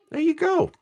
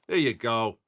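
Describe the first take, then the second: First: A goofy falsetto to celebrate the card; playful high-pitched cheer; squeaky high voice. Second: Said in the usual way. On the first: Acted. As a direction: jump way up into a silly squeak. Silly high voice while opening cards.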